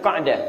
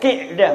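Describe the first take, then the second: First: The first vowel is an 'a' sound. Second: The first vowel is an 'i' sound. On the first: The speaker calls it wrong. "bukan Qa'dah" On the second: The speaker calls it right. "Yang benar Zulqi'dah"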